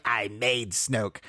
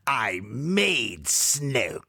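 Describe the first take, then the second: First: Slow, soft sinister line; a hint of the sinister emperor; Emperor impression. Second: Emperor impression. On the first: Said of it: "then when he says". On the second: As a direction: drag it out like a sinister emperor. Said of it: "the Emperor delivers the line".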